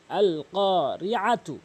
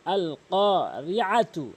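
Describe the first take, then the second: No difference in how they are said.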